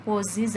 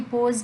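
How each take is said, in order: First: "poses" with the added -es ending said clearly, po-ziz; corrected form poses. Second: Said in the usual way. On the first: Shown as a demonstration. Teacher giving students the corrected verb, poses, said clearly. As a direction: land on the extra syllable of "poses". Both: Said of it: "pose के साथ क्या आएगा".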